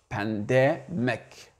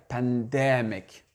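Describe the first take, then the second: The two takes are said the same way.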